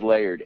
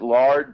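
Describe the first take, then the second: First: The vowel sounds like the one in 'cared'. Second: The vowel sounds like the one in 'hard'. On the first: The speaker calls it right. "but I think it's Laird" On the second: The speaker calls it wrong. "I want to pronounce it Lard"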